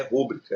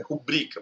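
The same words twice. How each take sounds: First: Rúbrica stressed on the first syllable, RÚ-bri-ca; the teacher shows the common mistake, rúbrica with early stress; wrong stress rúbrica. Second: Rubrica softly, stress on the middle syllable, ru-BRI-ca; the teacher gives the right form, rubrica with the stress in the middle; correct stress rubrica. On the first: Teacher warns students: rúbrica said wrong, first-syllable stress. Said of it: "não é rúbrica". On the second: Teacher to class, showing the right form: rubrica stressed in the middle. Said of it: "é rubrica". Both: Shown as a demonstration.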